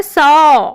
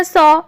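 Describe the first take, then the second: First: सौ said with the proper औ; correct pronunciation. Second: सौ said the casual wrong way; wrong pronunciation. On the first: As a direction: say सौ the right way, carefully. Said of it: "लेकिन होता है सौ". (सौ सही उच्चारण) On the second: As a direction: say सौ as people usually misspeak it. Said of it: "हम बोलते हैं सौ". (सौ गलत उच्चारण) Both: Shown as a demonstration.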